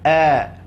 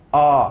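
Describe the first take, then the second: First: The vowel is thin, with lips in a smile. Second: The vowel is thick, with the mouth wide open. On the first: The speaker calls it right. "cukup senyum aja" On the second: The speaker calls it wrong. "tak perlu a. Ha, nanti dia akan akan menjadi huruf tebal"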